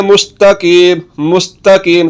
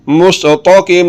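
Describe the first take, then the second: First: मुस्तकीम with a light, thin 'ta'. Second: मुस्तकीम with thick, rounded 'to' for ता; wrong heavy to. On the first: Teacher modelling the correct reading, thin ta. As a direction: keep the t fine in मुस्तकीम. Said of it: "ता पढ़ना है". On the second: Teacher warning learners off the mistake, heavy to. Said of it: "अगर तो पढ़ेंगे, तो फिर गलत". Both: Shown as a demonstration.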